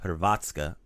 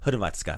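First: The stress falls on a later syllable. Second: The stress falls on the first syllable. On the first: The speaker calls it wrong. "not Hrvatska or Hrvatska" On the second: The speaker calls it right. "So accent the first syllable. Like usual, like Hrvatska"

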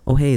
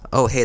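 First: The voice sounds boomy and bassy. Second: The voice sounds thin and tinny. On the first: "this sounds kind of like a bassy" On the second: "that sounds a little more tinny"

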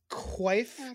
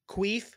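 First: The vowel is an 'eye' sound. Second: The vowel is a long 'ee' sound.

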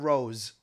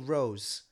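First: The word ends with a z sound. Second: The word ends with a soft s sound. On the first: The speaker calls it right. "a Rose with a Z" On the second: The speaker calls it wrong. "say Rose with a soft S"

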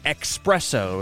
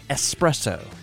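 First: The word begins with an ex sound. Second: The word begins with an es sound. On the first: The speaker calls it wrong. "A lot of people add an X and say espresso" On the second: The speaker calls it right. "there's no X in it. It's espresso"

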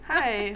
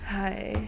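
First: It is said in her normal voice. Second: It is said in a put-on sexy voice.

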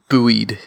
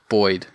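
First: Buoyed is said in an American way. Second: Buoyed is said in an Australian way. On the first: "as our American fans would be used to hearing" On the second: "the other buoyed"

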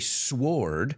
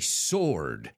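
First: The W sound is pronounced in the word. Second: The W sound is left silent in the word. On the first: The speaker calls it wrong. "I don't say sword" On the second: The speaker calls it right. "I say sword"

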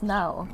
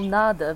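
First: The middle d sound is dropped. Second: The middle d sound is pronounced. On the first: "becomes now" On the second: This is the standard Castilian form. "nada becomes"

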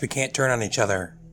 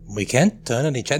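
First: It is said in his own normal voice. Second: It is said imitating Locke's voice.

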